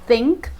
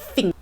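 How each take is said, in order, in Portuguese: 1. A palavra começa com um som de TH. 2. A palavra começa com um som de F. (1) "que é pronunciada com a língua entre os dentes e a soprando para fora" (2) "Cockney accent usa um som de F, então seria algo como"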